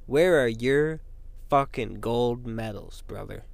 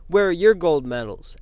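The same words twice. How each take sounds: First: Slow, dropping, gloating taunt; Kurt Angle taunt. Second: Said in the usual way. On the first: Retold or imitated. Taunting critics with two gold medals, slow gloating brag. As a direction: lord it over them, slowing down at the end. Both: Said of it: "like Kurt Angle".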